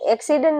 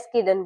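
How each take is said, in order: First: The opening cluster is said as k then s. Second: The opening cluster is said as s then k. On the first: This is the standard way of saying it. The speaker calls it right. "એક્સિડન્ટ ના બોલે" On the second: Some people say it this way by mistake. The speaker calls it wrong. "એસ્કિડન્ટ બોલે"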